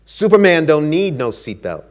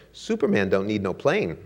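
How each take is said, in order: First: Louder, cocky snap; proud snap. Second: Dry comeback. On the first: Ali snapping at the flight attendant, cocky and proud. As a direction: toss it off like a proud champion. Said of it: "he snapped". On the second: Flight attendant answering Ali, laughing at her own comeback. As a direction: answer cool, then break into laughter. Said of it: "she stared at him and said". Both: Acted.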